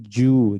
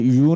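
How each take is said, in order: First: The syllable begins with a j sound. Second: The syllable begins with a y sound. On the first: "उनके मुंह से ऐसे sound निकले" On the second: "यू ऐसे"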